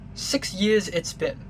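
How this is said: It is read in a British accent.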